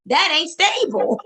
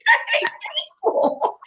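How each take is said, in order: First: Said in the usual way. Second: "That ain't stable" jumped way up high and thin, half whispered at the end; squeaky high repeat. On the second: Shown as a demonstration. Repeating her punchline to her co-host in a squeaky high voice. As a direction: squeak it back as a joke after laughing.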